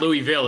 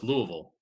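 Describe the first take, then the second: First: The syllables are pronounced fully and clearly. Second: The syllables are reduced and swallowed. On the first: The speaker calls it wrong. "It's not" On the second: The speaker calls it right. "take all the syllables and make them half as effective as they normally are"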